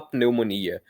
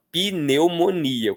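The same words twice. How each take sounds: First: Pneumonia with P stuck straight onto N; mute P. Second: Pneumonia as pi-neu-mo-ni-a, syllable by syllable; five-syllable pronunciation. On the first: Teacher showing what Brazilians do not say, mute P. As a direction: say pneumonia with no vowel after the P. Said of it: "não gostamos de letra muda". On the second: Teacher showing how Brazilians really speak, five syllables. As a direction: add an i after the P in pneumonia. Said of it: "como se tivessem cinco sílabas". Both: Shown as a demonstration.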